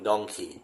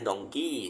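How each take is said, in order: First: The last syllable is said on a low pitch. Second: The last syllable is said on a high pitch. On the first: "native speaker จะเป็นดองคีเสียงต่ำ" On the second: "คนไทยออกเสียงดองกี้ ... ของเราออกเสียงสูง"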